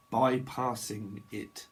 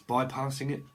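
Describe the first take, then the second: First: "Bypassing" stretched out slowly, syllable by syllable; slow, separated syllables on "Bypassing it"; drawn out. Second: Said in the usual way. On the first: Shown as a demonstration. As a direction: say "Bypassing it" at half speed. Same word again, drawn out.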